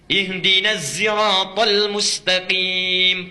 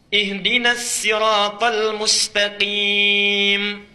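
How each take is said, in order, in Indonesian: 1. "Sirat" diawali dengan bunyi seperti z. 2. "Sirat" diawali dengan bunyi s yang biasa dan ringan. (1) "pakai zai" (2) "pakai sin riwayat Qalun"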